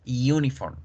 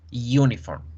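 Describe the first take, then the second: No difference in how they are said.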